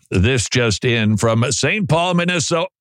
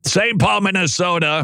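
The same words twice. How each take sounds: First: Said in the usual way. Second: "Saint Paul" said higher, with a mock choked-up catch; mock emotional. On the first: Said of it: "I'm sorry, I get emotional". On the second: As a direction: pretend to be moved by "Minnesota". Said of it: "I get emotional".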